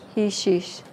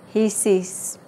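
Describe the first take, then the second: First: The second word has an sh sound. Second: The second word has a plain s sound.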